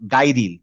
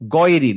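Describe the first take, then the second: First: The first vowel is an open 'ah' sound. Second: The first vowel is a rounded 'aw' sound. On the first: The speaker calls it wrong. "নট গাইরিল" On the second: The speaker calls it right. "গা না বলে বলবো হচ্ছে গ"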